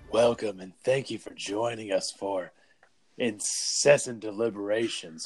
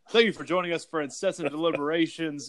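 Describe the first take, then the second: First: It is said in a put-on podcast voice. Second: It is said in his normal voice.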